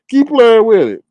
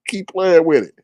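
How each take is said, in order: First: Higher, louder repeated warning; emphatic warning. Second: Said in the usual way. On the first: Real, not acted. Host warning viewers clicking on risky emails, emphatic. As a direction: drive the warning home with raised voice.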